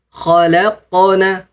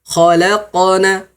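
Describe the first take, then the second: Both takes have the same delivery.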